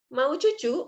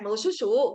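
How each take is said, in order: First: The s sounds are replaced by ch sounds. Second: The s sounds are pronounced as normal s. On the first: It imitates how a small child speaks. The speaker calls it wrong. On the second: It is the ordinary adult form of the word. The speaker calls it right.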